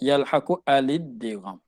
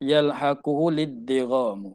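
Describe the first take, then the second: First: A stop comes first; the article starts with 'a'. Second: The words run together, the article's vowel dropped.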